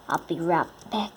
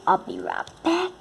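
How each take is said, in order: First: Said in the usual way. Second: Higher, sing-song call out. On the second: Real, not acted. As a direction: toss it over your shoulder, high. Calling out to a friend.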